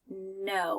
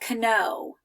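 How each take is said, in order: First: No K sound is heard at the start. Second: A K sound is heard at the start. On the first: The speaker calls it right. "without the K sound at the beginning" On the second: The speaker calls it wrong. "here I don't say know"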